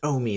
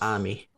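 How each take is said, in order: First: The word starts with an 'oh' vowel. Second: The word starts with an 'ah' vowel. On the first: The speaker calls it right. "so it's just Omi instead of Ami" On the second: The speaker calls it wrong. "instead of Ami"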